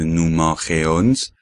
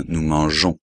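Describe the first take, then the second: First: Mangeons with a hard g, mangeons as mangue-ons; the mistake, nous mangeons; wrong pronunciation. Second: Right way, nous mangeons; correct French. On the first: Teacher showing students the wrong mangeons. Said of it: "no hay que decir". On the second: Teacher showing students the right mangeons. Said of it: "sino nous mangeons". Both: Shown as a demonstration.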